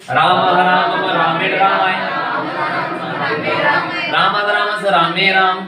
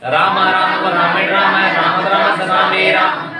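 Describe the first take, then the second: First: It is said in two separate parts. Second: It is said in one go.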